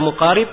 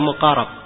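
First: The vowel before the final consonant is i. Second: The vowel before the final consonant is a. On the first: The narrator comes close to reliable narration. "bisa dibaca muqarib" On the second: Reliable narration comes close to the narrator. "bisa dibaca muqarab"

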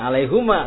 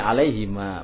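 First: The vowel after the h is u. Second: The vowel after the h is i. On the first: The speaker calls it wrong. "bukan alaihuma" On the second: The speaker calls it right. "tapi alaihima"

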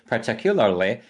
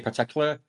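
First: The word is said in full, sounding long. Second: The word is shortened, with its ending cut off. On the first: The speaker calls it wrong. "now I say particularly, and that feels weird" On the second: The speaker calls it right. "if I was talking normally, I'd say particular. And just cut the end of the word off"

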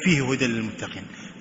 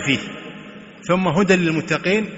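First: The pause falls before the word fihi. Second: The pause falls after the word fihi. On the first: Guidance is in the book for the pious only. The speaker calls it wrong. "لا يقول فيه هدى للمتقين" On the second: The book is free of doubt, and guidance is general. The speaker calls it right. "ذلك الكتاب لا ريب فيه ثم هدى للمتقين"

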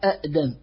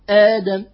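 First: The word starts with two separate glottal stops. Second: The word starts with one glottal stop, long vowel. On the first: The speaker calls it wrong. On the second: The speaker calls it right.

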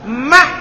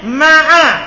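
First: The ain ends the word with no vowel. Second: The ain is followed by a short a vowel. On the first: "Dan boleh juga wa sukuniha, dan boleh juga disukun. Berarti dibaca apa?" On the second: "Belum bilang ma'a di fathah ainnya"

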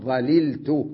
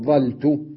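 First: Both L sounds are pronounced, separated by a vowel. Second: One L sound is dropped, with the first vowel open. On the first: "مفكوك الإدغام" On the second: "حذف اللام الأولى مع بقاء حركة الفاء مفتوحة"

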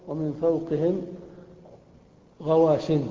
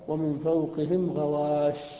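First: The last word ends with an n sound. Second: The last word ends without an n sound. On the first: The phrase continues without stopping. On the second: The speaker stops at this word.

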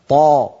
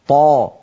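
The two takes are said the same way.

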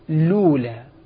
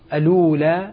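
First: The word starts directly with an L sound. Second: The word starts with a glottal stop and vowel. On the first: The connecting hamza is dropped since the L carries a vowel. "وإما أن يبدأ بلام مضمومة" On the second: The original connecting hamza is kept. "إما أن يبدأ بهمزة مفتوحة"

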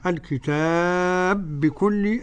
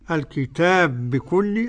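First: The long vowel is held for four counts. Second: The long vowel is held for two counts. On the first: "أدي 4" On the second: "أدي حركتين"

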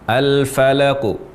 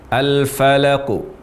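No difference in how they are said.

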